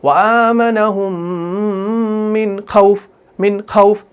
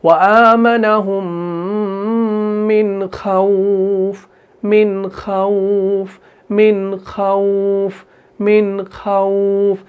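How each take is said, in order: First: Chanted line ending on a short "au" in खौफ; abrupt खौफ after a long आमनहुम; hard, wrong recitation. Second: Slow level chant, long "au" in खौफ; soft leen recitation. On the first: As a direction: cut खौफ short, no glide. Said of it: "सख्ती से नहीं". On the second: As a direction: draw खौफ out gently. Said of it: "नरमी से अदा कर रहे हैं". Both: Shown as a demonstration.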